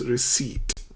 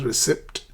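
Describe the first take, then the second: First: "receipt" pronounced ri-SEET, P left silent; careful model "receipt", ending in SEET. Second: "receipt" with the P sounded, ri-SEPT; spelling pronunciation. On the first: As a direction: say "receipt" clearly without any P. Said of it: "the word is pronounced receipt". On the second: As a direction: say the P in "receipt" as written. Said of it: "it's not receipt as it's spelled". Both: Shown as a demonstration.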